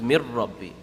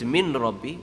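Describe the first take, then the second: First: The n merges fully into the r. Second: The n is heard clearly before the r. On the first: "but you connect it, becomes mir rabbi" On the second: "Min is min rabbi"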